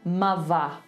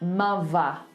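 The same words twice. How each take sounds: First: The middle consonant is a v sound. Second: The same.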